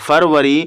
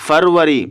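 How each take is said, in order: Both takes have the same delivery.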